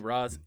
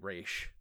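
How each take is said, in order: First: The name ends with an s sound. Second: The name ends with a sh sound. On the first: The speaker calls it wrong. "Hey, Ra's" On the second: The speaker calls it right. "it's actually Raish"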